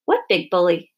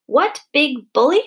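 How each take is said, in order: First: Mild, innocent question. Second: High, loud, drawn-out echo of disbelief; outraged shriek. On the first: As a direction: ask as if you truly have no idea. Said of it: "asked Missus Semicolon innocently". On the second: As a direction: throw the question back, shrieking and slow. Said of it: "shrieked Missus Eager". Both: A narrator's reading.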